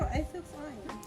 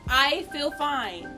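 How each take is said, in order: First: The phrase is said quietly. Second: The phrase is said loudly. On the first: "No one can hear you" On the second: "Can you speak up?"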